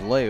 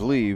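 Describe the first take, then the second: First: The name ends in an 'ay' vowel. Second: The name ends in an 'ee' vowel. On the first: "they're pronouncing it as Lay over there" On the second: "most of the game we've been pronouncing it as Lee"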